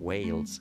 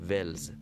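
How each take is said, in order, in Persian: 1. این واکه یک صدای 'ay' کشیده و لغزان است. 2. این واکه یک صدای کوتاه و ساده 'eh' است. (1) "آنچه آنان میگویند البته با تلفظ آمریکای شمالی" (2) "آنچه که ما میگیم همین هست"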